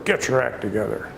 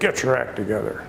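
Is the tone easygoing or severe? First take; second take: severe; severe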